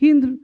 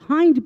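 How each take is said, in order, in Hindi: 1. स्वर छोटी 'i' ध्वनि है। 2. स्वर लंबी 'eye' ध्वनि है। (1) "हिंद नहीं पढ़ेंगे" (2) "हाइंड पढ़ेंगे"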